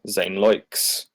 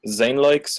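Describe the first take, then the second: First: The stress is on the second part, likes. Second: The stress is on the first part, Zane. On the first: "or on the likes?" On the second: "Is it on the Zane"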